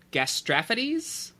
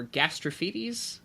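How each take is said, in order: First: "gastrophides" as gas-TRAF-uh-deez, stress on TRAF; second syllable stressed. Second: "gastrophides" as gas-truh-FEE-deez; alternative pronunciation, FEE. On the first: Podcaster attempting rusty ancient Greek, "gastrophides" said gas-TRAF-uh-deez. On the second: Podcaster offering another Greek guess, "gastrophides" said gas-truh-FEE-deez. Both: Shown as a demonstration. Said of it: "little rusty on my ancient Greek pronunciation".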